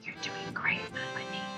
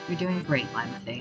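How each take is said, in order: First: It is said in a soft whisper. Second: It is said in a normal voice.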